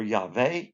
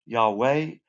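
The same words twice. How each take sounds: First: "Yahweh" said yah-VEH with a V sound; "Yahweh" with V in place of W. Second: "Yahweh" said yah-WEH with a clear W sound; "Yahweh" con sonido de W, yah-WEH. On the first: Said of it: "the Vav and the Wa, the W sound". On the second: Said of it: "You can say Yahweh". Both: Shown as a demonstration.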